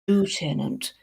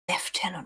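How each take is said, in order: First: It is said with an American pronunciation. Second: It is said with a British pronunciation. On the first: "the Americans, you see, they say Lieutenant" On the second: "the British say Lieutenant because we're British"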